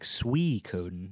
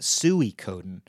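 First: The first syllable sounds like sweet without the t. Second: The first syllable sounds like a pig call, sooey. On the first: The speaker calls it right. "sweet without the T, so like Suikoden" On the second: The speaker calls it wrong. "I used to call it Suikoden, like when you call a pig"

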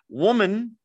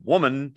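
First: The word is said in a gentle, respectful tone. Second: The word is said in a harsh, dismissive tone. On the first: The speaker is addressed with respect. The speaker calls it right. "which is a respectful address" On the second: The speaker is addressed with contempt. The speaker calls it wrong. "it's not like that"

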